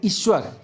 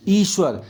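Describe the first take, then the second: First: ईश्वर begun with short i, iswar; short-i misreading. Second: ईश्वर begun with long ee, eeshwar. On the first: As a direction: clip the opening vowel of ईश्वर short. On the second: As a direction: stretch the opening ee of ईश्वर. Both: Shown as a demonstration. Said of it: "बड़ी की मात्रा है".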